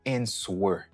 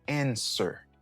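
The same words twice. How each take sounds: First: A W sound is pronounced after the S. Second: No W sound is pronounced after the S. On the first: The speaker calls it wrong. "Ou pas dit answer" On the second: The speaker calls it right. "ou dit answer"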